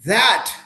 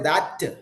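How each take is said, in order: First: The final consonant ends cleanly with no vowel. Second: An extra 'uh' vowel follows the final consonant. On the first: The speaker calls it right. "try to say that" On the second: The speaker calls it wrong. "Don't say that"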